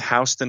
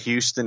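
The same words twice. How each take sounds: First: It is said the local Georgia way. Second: It is said the common non-local way. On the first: This is how people in the area say it. The speaker calls it right. "here in Atlanta, it's Houston" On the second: This is how outsiders say it. The speaker calls it wrong. "not Houston"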